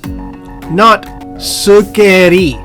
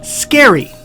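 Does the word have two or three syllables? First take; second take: three; two. First: The word is said with three syllables. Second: The word is said with two syllables. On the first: The speaker calls it wrong. "you've turned a two-syllable adjective into a three-syllable adjective" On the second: The speaker calls it right. "So this word is pronounced scary"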